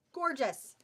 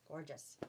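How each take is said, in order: First: Higher, louder, emphatic praise; emphatic admiration. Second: Low, soft echo of praise; hushed admiration. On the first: Seller praising blue fabric to shoppers, emphatic admiration. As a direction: punch it out with admiration. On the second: Seller repeats her praise of the fabric, hushed admiration. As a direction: drop low and murmur it admiringly. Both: Real, not acted.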